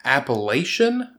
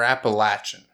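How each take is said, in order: First: Appalachian with a long A, "LAY-shun"; "lay" in the middle of Appalachian; long A pronunciation. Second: Appalachian with a short A, "LATCH-un"; "latch" in the middle of Appalachian; local pronunciation. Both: Shown as a demonstration. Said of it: "We're all not from here. It's, it's".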